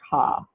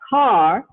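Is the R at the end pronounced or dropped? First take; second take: dropped; pronounced. First: The final R is dropped, British-style. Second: The final R is pronounced.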